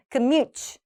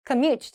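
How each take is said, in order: First: Commute wrongly stressed on the first syllable; wrong front stress. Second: Commute stressed on the last syllable; light start, lean on the MUTE of commute; back stress. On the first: Teacher showing the mistake to avoid, front stress. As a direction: hit the COM of commute. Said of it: "앞에 commute가 아니에요". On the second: Teacher showing the correct commute, stress at the back. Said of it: "뒤쪽에". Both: Shown as a demonstration.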